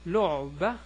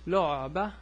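The two takes are said the same way.

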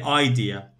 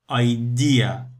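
First: The stress falls on the first syllable. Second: The stress falls on the second syllable. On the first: The speaker calls it wrong. "Some students, they say idea. No" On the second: The speaker calls it right. "because the stress on EA. So we say idea"

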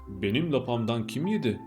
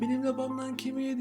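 First: It is said in a big, deep voice. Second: It is said in a squeaky, shrill voice. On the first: "iri ve kalın sesli olanı" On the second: "yavru olan ciyaklayarak"

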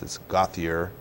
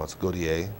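First: The name is said the East Coast way. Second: The name is said the Louisiana way.

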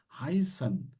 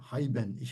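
First: The middle consonant is a long s sound. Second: The middle consonant is a b sound. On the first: The speaker calls it right. "uzayan bir S gibi düşünün bunu" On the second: The speaker calls it wrong. "Bazı öğrencilerimi duyuyorum bunu B gibi okuyorlar"

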